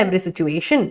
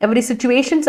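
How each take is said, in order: First: Every situation said softer and lower; correct form, softer. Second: Said in the usual way. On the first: Shown as a demonstration. Teacher softly correcting Parvathy's phrase. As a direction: quietly give every situation, the fix. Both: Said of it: "അല്ല".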